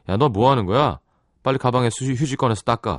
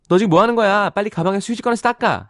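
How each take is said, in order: First: It is read in a masculine tone. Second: It is read in a feminine tone.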